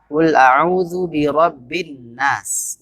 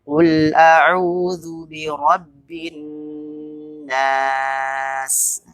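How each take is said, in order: First: The doubled n is clipped with no held nasal hum. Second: The doubled n is held with a long nasal hum. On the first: The speaker calls it wrong. "nun tasydid dibaca hanya seperti tasydid biasa" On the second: The speaker calls it right. "seharusnya dibaca dengung lebih lama"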